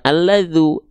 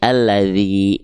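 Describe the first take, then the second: First: The word ends with a u vowel. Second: The word ends with an i vowel. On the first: The speaker calls it wrong. "bukan alladzu" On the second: The speaker calls it right. "mesti kita baca dengan vokal i"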